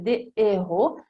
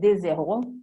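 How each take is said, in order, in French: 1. Le s ne se lie pas au mot suivant. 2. Le s se lie au mot suivant. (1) "si dice des héros e les haricots non si collega la S con la H" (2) "non si dice des héros"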